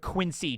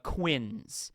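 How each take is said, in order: First: The word has two syllables, ending in an ee sound. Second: The word has one syllable, rhyming with prince. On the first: The speaker calls it wrong. "It's not pronounced this way" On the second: The speaker calls it right. "rhymes with like Prince"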